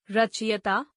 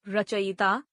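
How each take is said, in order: First: रचयिता said "ra-chi-ya-taa"; mispronounced. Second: Said in the usual way. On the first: Shown as a demonstration. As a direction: move the "i" of रचयिता to straight after ch. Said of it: "अशुद्ध". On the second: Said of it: "शुद्ध".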